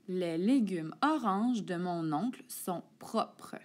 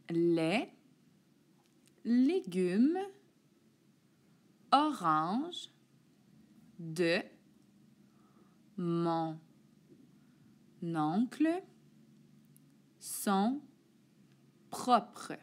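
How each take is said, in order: First: The sentence is read at a quicker pace. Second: The sentence is read at a slower pace.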